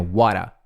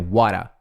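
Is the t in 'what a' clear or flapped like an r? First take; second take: flapped; flapped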